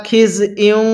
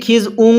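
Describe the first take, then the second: First: খিজইউং with the i sound kept before উং; correct pronunciation. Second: খিজউং with the i dropped; the common mistake খিজউং; wrong pronunciation. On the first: Teacher gives students the correct খিজইউং. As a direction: say খিজইউং, not খিজউং. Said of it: "অনেকেই খিজউং পড়ি". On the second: Teacher shows students the wrong খিজউং. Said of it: "সহি শুদ্ধ হবে না". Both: Shown as a demonstration.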